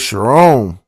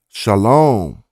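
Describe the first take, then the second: First: The middle consonant is an R sound. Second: The middle consonant is an L sound. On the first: Speakers without an L sound substitute R. "the Egyptian people are not familiar or they don't use the la sound" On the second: The Semitic speakers' own pronunciation. "walked up saying"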